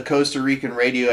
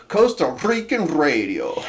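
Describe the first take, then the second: First: Said in the usual way. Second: "Costa Rican radio" with long trilled R's; rolled R's. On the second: Shown as a demonstration. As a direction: roll hard on each R in "Rican radio". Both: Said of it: "how they roll the R's".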